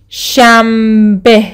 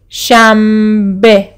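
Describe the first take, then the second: First: The consonant before b is an m. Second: The consonant before b is an m.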